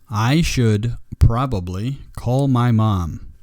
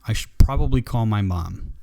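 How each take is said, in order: First: The word 'should' is pronounced fully and clearly. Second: The word 'should' is shortened almost to 'shd'. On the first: "versus how it sounds maybe by an audio translator" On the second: "In speaking, ... The word should almost disappears. It sounds like S H D"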